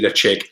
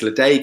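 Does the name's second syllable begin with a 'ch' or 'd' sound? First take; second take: ch; d. First: The second syllable begins with a 'ch' sound. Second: The second syllable begins with a 'd' sound. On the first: The speaker calls it right. "It's actually Le Chig" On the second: The speaker calls it wrong. "which I would usually pronounce as Le Daig"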